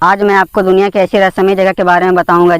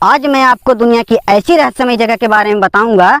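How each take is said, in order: First: It is said in a plain, everyday conversational tone. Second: It is said in a changed, expressive narrating tone. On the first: "मैं normal आवाज में बोलता हूँ" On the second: "मैं tone change करके voice over करता हूँ"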